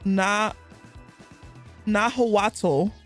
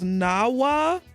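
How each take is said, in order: First: The word ends with a 'tl' sound. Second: The word ends without a 'tl' sound. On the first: The speaker calls it wrong. "I know I'm saying it wrong" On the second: The speaker calls it right. "The proper pronunciation though is Nawa. The T L ... it's silenced in the last word"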